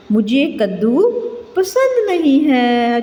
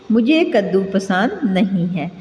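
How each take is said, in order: First: Put-on child's answer. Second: Said in the usual way. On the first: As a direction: play a child who dislikes pumpkin. Teacher voices a child's answer. (बच्चे की आवाज़ में, ऊँची और धीमी)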